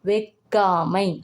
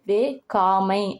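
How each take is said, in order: First: The middle consonant is pronounced soft. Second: The middle consonant is pronounced hard. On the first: The speaker calls it right. "ஒரு மென்மையான சொல்ல" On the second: The speaker calls it wrong. "ரொம்ப வந்து கடினமா இருக்கும்"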